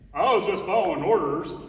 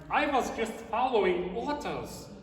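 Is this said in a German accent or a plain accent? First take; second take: plain accent; German accent. First: It is said in a plain, unaccented voice. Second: It is said in a put-on German accent. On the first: The speaker calls it wrong. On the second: The speaker calls it right.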